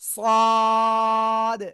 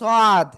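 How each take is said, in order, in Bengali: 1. স্বরধ্বনিটি টেনে দীর্ঘ করে বলা হয়েছে। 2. স্বরধ্বনিটি হ্রস্ব, টানা হয়নি। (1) "চার আলিফ টান" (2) "অনেকে বলেন সাদ। না"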